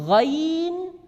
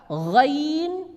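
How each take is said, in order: No difference in how they are said.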